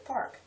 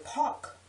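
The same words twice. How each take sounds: First: "park" with a clear R; proper pronunciation. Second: "park" as PAWK; relaxed "park" with no R; lax pronunciation. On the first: Speaker showing her proper way, "park" with R. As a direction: sound every consonant in "park". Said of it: "properly I say park". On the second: Speaker showing herself being lax, "park" as pawk. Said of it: "when I'm being laxed". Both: Shown as a demonstration.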